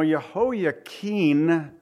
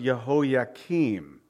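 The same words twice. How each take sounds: First: Jehoiakim said with an N at the end, "Jehoiakin"; final N sound. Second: Jehoiakim said with an M at the end; final M sound. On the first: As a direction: end Jehoiakim on a drawn-out "keen". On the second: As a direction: end Jehoiakim on a drawn-out "keem". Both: Shown as a demonstration. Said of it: "with an N on the end of it".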